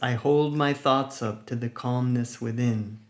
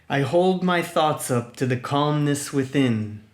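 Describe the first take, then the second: First: It is said at ordinary speaking volume. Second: It is said loudly and energetically. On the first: "normal speaking voice" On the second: "in a loud, energetic voice"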